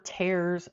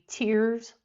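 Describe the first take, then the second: First: The vowel sounds like the one in 'hairs'. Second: The vowel sounds like the one in 'fears'. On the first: Rips. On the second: Drops from the eyes when crying.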